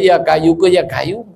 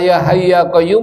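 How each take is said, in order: First: Both words are flattened into plain kayu. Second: The h and q sounds are kept distinct. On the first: The speaker calls it wrong. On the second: The speaker calls it right.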